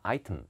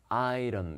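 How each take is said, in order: First: The middle t is crisp and clear. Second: The middle t is soft and light. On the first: "영국 사람들은 item 이렇게 읽기도 합니다" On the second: "T 사운드는 어, 약간 이렇게 부드럽게 item 이렇게 읽는 게 자연스럽습니다"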